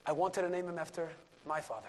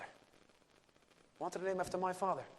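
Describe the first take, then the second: First: Said in the usual way. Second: Plain. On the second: Retold or imitated. Repeated slower, softer.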